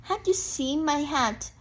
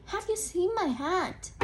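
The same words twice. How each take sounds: First: Said in the usual way. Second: Rising question tune on "Have you seen my hat?"; curious bear asking "Have you seen my hat?" with a rise. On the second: Shown as a demonstration. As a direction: ask it, lifting at the end. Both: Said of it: "read it in a questioning voice".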